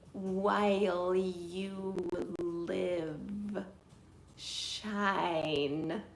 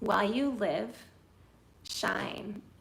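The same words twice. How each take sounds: First: It is said flatly, without shaped phrasing. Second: It is said expressively, building toward 'shine'. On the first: The words are said with no thought for meaning. The speaker calls it wrong. "if I was to just focus so much on trying to say the words" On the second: The call to shine is what the listener should take away. The speaker calls it right. "Shine is the word that you want to hear"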